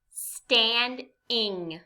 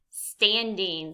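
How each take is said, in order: First: STANDING slowly as stand, pause, ing; two separate beats in STANDING; syllable by syllable. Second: Said in the usual way. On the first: Shown as a demonstration. Teacher gives learners a harder word, STANDING syllable by syllable. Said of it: "say some words in parts". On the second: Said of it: "What word is it?".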